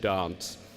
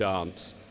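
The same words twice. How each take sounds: First: The vowel is a long broad 'ah'. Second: The same.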